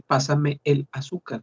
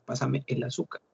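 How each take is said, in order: First: Pásame el azúcar said slowly with every word apart; Pásame, el, azúcar kept distinct; separate words. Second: Pásame el azúcar run together as pasame la suka; Pásame el azúcar merged so it sounds like la azúcar; linked speech. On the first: Teacher shows the unlinked way: words said apart. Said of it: "Y por qué vamos a decir". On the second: Teacher shows how people link it: words merged. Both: Shown as a demonstration.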